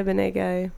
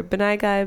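First: "Benai Guy" with Benai ending like "nay"; second pronunciation attempt. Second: "Benai Guy" with Benai ending like "eye"; alternative pronunciation. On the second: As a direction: say "Benai Guy" as buh-NIGH guy. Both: Shown as a demonstration. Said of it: "or Benai Guy".

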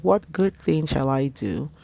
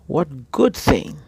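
First: Said in the usual way. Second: Good leaned on, louder and slower; what GOOD thing, drawn out and weighted; stress on good. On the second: Shown as a demonstration. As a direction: land hard on the word good. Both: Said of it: "because he used the word good".

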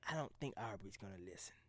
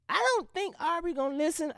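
First: Hushed whisper, much softer; whispered inner voice agreeing. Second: Much higher, half-mocking take; high doubtful voice. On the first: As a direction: let the other part of you whisper it. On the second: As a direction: voice the doubting part of yourself up high. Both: Shown as a demonstration. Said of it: "a piece of me is just like".

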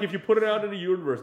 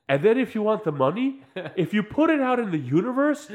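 First: Said in the usual way. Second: High, loud mock guru pitch; hammed-up self-help promise; mock metaphysician. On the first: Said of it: "whenever they would say". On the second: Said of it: "they'll go back to the other guy".

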